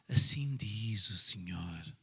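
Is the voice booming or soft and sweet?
soft and sweet. It is said in a soft, sweet voice.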